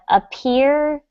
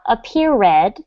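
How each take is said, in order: First: The ending is a plain final d sound. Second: The ending is said as an extra syllable. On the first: The speaker calls it right. "we have that final D pronunciation" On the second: The speaker calls it wrong. "not appeared"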